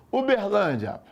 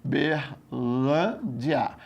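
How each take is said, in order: First: Said in the usual way. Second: "Uberlândia" drawn out very slowly, in separated syllables. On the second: Shown as a demonstration. Student sounds out the word, "Uberlândia" syllable by syllable. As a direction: split "Uberlândia" syllable by syllable, lower-pitched.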